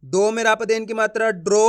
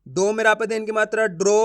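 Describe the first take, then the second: No difference in how they are said.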